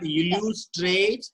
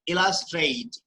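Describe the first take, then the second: First: The last syllable does not sound like 'straight'. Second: The last syllable sounds like 'straight'. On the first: The speaker calls it wrong. "Not illustrate" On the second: The speaker calls it right. "it's illustrate. Straight"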